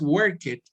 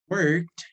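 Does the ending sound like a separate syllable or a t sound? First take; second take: separate syllable; t sound. First: The ending is an extra separate syllable. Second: The ending is a short t sound only. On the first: The speaker calls it wrong. "no es work it" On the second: The speaker calls it right. "se pronuncian como si todos terminaran con T"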